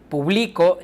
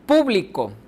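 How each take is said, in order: First: The stress is on the middle syllable. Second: The stress is on the first syllable. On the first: "En la segunda está en medio" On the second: "la sílaba tónica está al principio"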